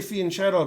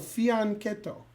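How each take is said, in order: First: The middle consonant is a soft 'sh' sound. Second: The middle consonant is a hard 'k' sound. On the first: The speaker calls it wrong. "But I just say fianchetto because I'm in America" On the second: The speaker calls it right. "it's not shadow, it's keto. So fianchetto. That's how you do it"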